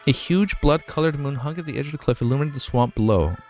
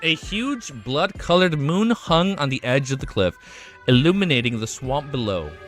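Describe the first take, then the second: First: It is read at a normal, quicker pace. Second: It is read slowly and carefully.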